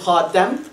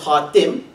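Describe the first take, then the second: First: The vowel after the t is 'a'. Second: The vowel after the t is 'i'. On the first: It means the seal. "bi fath ta, with the zabr on the ta" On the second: It means the final. "bi kasr ta, with the zair on the ta"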